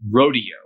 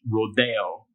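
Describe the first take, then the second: First: The word is pronounced the American English way. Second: The word is pronounced the Spanish way. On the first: "especially American English, it's pronounced rodeo" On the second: "this is an Americanized word from Spanish"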